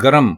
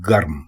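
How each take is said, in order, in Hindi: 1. एक स्वर अंतिम दो व्यंजनों को अलग करता है। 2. अंतिम दो व्यंजन एक साथ बोले जाते हैं। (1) "गरम गलत है" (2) "दुरुस्त लफ्ज है गर्म"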